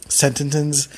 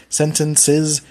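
Both takes have the same delivery.

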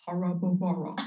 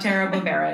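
First: The name's vowel sounds broad and open. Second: The name's vowel sounds narrow and flat. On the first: The speaker calls it right. "It's like you're just standing tall in your mouth" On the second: The speaker calls it wrong. "It's not Tara Bobera"

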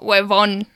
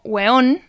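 First: The middle v sound is clearly pronounced. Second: The middle v sound is dropped. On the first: "acá hacemos el hincapié en la B corta" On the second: "en otros países... se pronuncia más como hueón"

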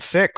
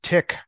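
First: The word begins with a th sound. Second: The word begins with a plain t sound.

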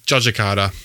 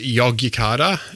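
First: The name begins with a J sound. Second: The name begins with a Y sound. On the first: "a lot of people will say Yogyakarta" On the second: "it's written with a Y's, so it's Yogyakarta"

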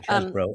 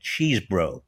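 First: The first syllable sounds like 'chess'. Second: The first syllable sounds like 'cheese'. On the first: "But I do think it's Chesbrough" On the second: "I was always pronouncing it Cheesbrough"

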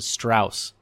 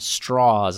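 First: The surname is said a non-Southern way. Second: The surname is said the Southern way. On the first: This is the way its bearer does not want it said. The speaker calls it wrong. "as opposed to" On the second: This is the way its bearer wants it said. The speaker calls it right. "he says it's the southern pronunciation of the name"

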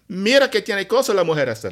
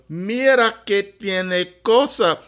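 First: It is said at normal, fast speed. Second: It is said slowly.

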